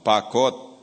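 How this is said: The final syllable is swallowed and clipped.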